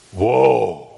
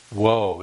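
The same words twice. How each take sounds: First: Woe as a long, loud moaning cry; drawn-out Hebrew woe. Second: Said in the usual way. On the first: Shown as a demonstration. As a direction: let Woe swell out, louder, like a lament. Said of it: "The word sounds like this". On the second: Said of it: "Now we read the word like woe".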